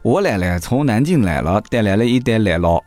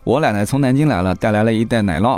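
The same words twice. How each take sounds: First: It is said in Nanjing dialect. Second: It is said in standard Mandarin.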